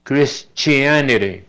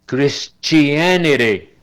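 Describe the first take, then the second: First: Christianity with the last t tapped like a Spanish r, kris-chee-a-ne-re, slowly; slow demo, the final t flapped in Christianity; teacher slowly models Christianity with a tapped t. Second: Christianity with the t said as a ch, kris-chee-an-ity, slowly; slow teaching demo, Christianity with a ch sound; teacher slowly models Christianity with ch; T like Spanish CH. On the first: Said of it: "Y la última". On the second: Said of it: "se pronuncia como C H en español". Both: Shown as a demonstration.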